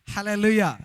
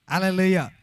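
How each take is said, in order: Both takes have the same delivery.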